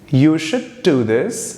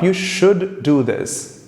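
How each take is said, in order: First: The D at the end of should is dropped. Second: The D at the end of should is pronounced. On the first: The speaker calls it right. "dropping the D of should and just pronouncing the D of do" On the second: The speaker calls it wrong.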